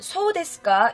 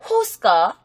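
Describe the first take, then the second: First: It is said in standard Japanese pronunciation. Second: It is said in a regional dialect pronunciation.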